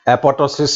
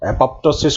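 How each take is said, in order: First: The second p sound is left out. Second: The second p sound is pronounced.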